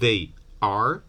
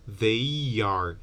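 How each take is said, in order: First: The two words are said separately, without a glide. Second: A y sound links the two words together.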